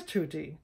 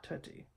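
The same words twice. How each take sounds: First: Tutti with a pure oo, TOOT-tee; the proper Italian tutti; tutti, held double t; correct Italian. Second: Tutti said softly with a Texan too-tee; the wrong Texas tutti, quietly; tutti, mispronounced Texan style; wrong pronunciation. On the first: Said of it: "the word is". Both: Shown as a demonstration.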